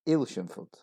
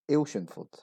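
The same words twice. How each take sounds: First: The name is said with three syllables. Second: The same.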